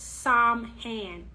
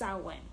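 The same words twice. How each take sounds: First: The word is sounded out as it is spelled. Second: The word is not sounded out as spelled. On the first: The speaker calls it wrong. "is not pronounced Samhain. It's spelled that way" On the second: The speaker calls it right. "but it's pronounced Samhain"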